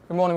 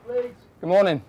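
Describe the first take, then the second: First: Said in the usual way. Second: Calling out. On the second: Real, not acted. Calling into house during raid.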